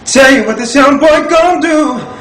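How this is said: The voice is full and deep.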